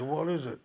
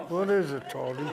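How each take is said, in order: First: Said in the usual way. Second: "What is it" pushed out with lips held still, half laughing; mock ventriloquist mumble of "What is it, Tony?"; through unmoving lips. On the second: Actor imitates Marilyn asking through frozen lips, laughing. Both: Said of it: "then she won't move her lips".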